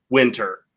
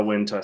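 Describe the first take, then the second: First: "winter" ending in a clear R; American R ending. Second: "winter" ending in an ah, no R; non-rhotic British "winter"; British R-less ending. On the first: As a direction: say "winter" the American way, final R sounded. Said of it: "with the R sound". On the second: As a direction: say "winter" the British way, final R dropped. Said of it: "in British English, it's more of an". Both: Shown as a demonstration.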